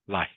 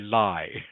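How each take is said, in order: First: The final k sound is clearly heard. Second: The final k sound is dropped. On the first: The speaker calls it right. "foreign speakers have to hear that last consonant" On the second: The speaker calls it wrong. "Don't don't say lie"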